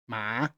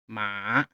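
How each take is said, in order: First: The pitch rises like a question. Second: The pitch dips down then rises again. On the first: "You have to pull your voice up" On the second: "goes down and up"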